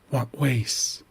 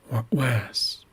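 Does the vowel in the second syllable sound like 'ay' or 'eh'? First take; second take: ay; eh. First: The second syllable has an 'ay' vowel. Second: The second syllable has an 'eh' vowel. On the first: The speaker calls it wrong. "this is not what ways" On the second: The speaker calls it right. "That's the most accurate pronunciation"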